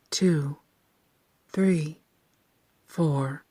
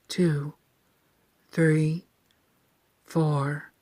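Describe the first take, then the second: No difference in how they are said.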